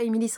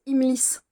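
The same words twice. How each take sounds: First: "Imilis" with an extra i before the final s; mistaken pronunciation. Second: "Imilis" without the second-last vowel, as Imils; corrected pronunciation. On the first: Reader showing her misreading of the title, mistaken "Imilis". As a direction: say "Imilis" in three syllables, i-mi-lis. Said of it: "j'ai pas arrêté de dire Imilis". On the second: Reader correcting her misread title, "Imilis" said as Imils. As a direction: say "Imilis" in two syllables, i-mils. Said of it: "C'est pas Imilis en fait". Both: Shown as a demonstration.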